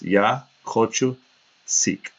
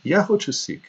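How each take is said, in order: First: Slow, careful "Ya hochu seek"; slow phrase demo. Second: Put-on high, childlike "Ya hochu seek"; imitating the boy. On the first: Shown as a demonstration. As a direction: spell out "Ya hochu seek" slowly for learners. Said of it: "That's what that means". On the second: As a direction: chirp "Ya hochu seek" like a little kid. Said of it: "Mama, I want juice".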